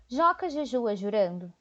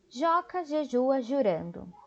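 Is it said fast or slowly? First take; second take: fast; slowly. First: It is said at a faster pace. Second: It is said at a slower pace.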